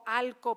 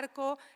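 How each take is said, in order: First: The syllable ends with an l sound. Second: The syllable ends with an r sound. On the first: This is a regional inland Andalusian form. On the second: This is the standard form.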